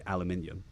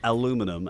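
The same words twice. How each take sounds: First: "aluminium" the British way, al-yu-MIN-i-um; British pronunciation. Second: "aluminum" the American way, a-LOO-mi-num; American pronunciation. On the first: Brit showing how the British say it, "aluminium" stressed on the third syllable. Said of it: "and we say aluminium". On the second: Brit showing how Americans say it, "aluminum" stressed on the second syllable. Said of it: "how we say, you say". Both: Shown as a demonstration.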